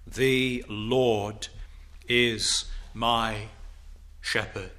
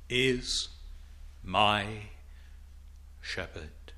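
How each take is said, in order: First: Said in the usual way. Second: Fading to a soft, low whisper of wonder; awed near-whisper; hushed awe. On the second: Acted. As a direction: let shepherd fall away in reverence. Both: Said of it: "Think of that".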